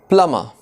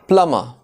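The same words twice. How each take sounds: Both takes have the same delivery.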